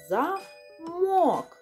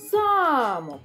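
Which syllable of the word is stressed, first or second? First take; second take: second; first. First: The stress is on the second syllable. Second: The stress is on the first syllable. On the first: It means a lock, something used to close things. "О промовляється з підвищеною інтонацією. Другий склад" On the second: It means a castle, a building. "коли ми перший склад промовимо з підвищеною інтонацією"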